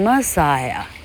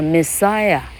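First: The stress is on the first syllable. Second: The stress is on the second syllable. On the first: The speaker calls it wrong. "念成Messiah，听起来就是飞弹了" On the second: The speaker calls it right. "你把Messiah"

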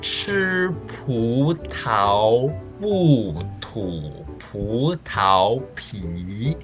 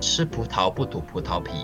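First: It is said with exaggerated, overarticulated mouth movements. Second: It is said with relaxed everyday articulation.

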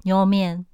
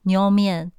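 Both takes have the same delivery.

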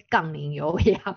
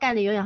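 First: The first syllables are said clearly as gang ling. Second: The first syllables run together, sounding like gan ni. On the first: The speaker calls it right. "我现在要纠正" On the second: The speaker calls it wrong. "因为我讲话的字都连在一起"

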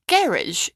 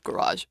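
First: It is said in a British accent. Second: It is said in an American accent.

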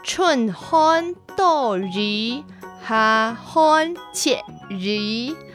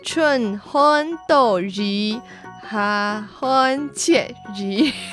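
First: It is said in the Hailu Hakka accent. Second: It is said in the Hailu Hakka accent.

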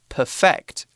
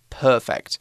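First: The stress is on the second syllable. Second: The stress is on the first syllable.

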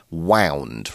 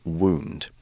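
First: The vowel sounds like 'ow' in 'sound'. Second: The vowel sounds like 'oo' in 'spoon'. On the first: It is the past form of winding something. The speaker calls it right. "that is either the past tense or the adjective form of wind" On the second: It is an injury. The speaker calls it wrong. "Wound, of course, is an injury"

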